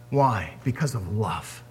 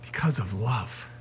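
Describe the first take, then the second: First: Softer, lower, tender answer. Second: Softer still, almost breathed; near whisper. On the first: Preacher answering why Jesus died, tender. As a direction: let it land gently. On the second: Preacher repeating to congregation, hushed. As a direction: echo it quieter. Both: Real, not acted.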